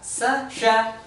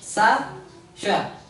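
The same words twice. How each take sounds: First: The syllables are read quickly without gaps. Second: The syllables are read slowly with gaps. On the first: "ini lebih cepat" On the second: "ini maksudnya dibaca lebih pelan ya"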